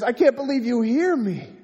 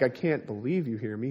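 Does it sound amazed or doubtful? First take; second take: amazed; doubtful. First: It sounds amazed and full of wonder. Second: It sounds doubtful, as if in disbelief.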